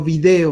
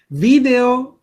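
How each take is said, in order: First: The stress is on the second syllable. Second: The stress is on the first syllable. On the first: It is the form used in Mexico. "o sin acento" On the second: It is the form used in Spain.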